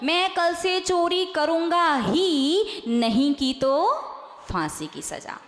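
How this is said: The pause comes before नहीं.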